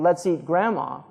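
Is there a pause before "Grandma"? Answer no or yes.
no. There is no pause before Grandma.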